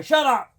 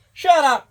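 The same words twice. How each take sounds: First: Shouting at dog. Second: Sharp loud yell at the dog; shouting at dog. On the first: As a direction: bark it back at the dog. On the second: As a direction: snap at the barking dog. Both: Real, not acted. Yelling at barking dog.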